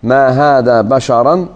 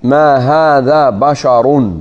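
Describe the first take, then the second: First: "ما هذا بشرا" ending in an open a sound, said slowly; accusative reading. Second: "ما هذا بشر" ending in a rounded u sound, said slowly; nominative reading. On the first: Teacher reciting the Hijazi reading slowly for students. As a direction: stretch out "ما هذا بشرا" with the final a vowel. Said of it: "فمن قرأ". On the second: Teacher reciting the Tamimi reading slowly for students. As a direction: drawl out "ما هذا بشر" with the final u vowel. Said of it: "وفي قراءة أخرى". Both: Shown as a demonstration.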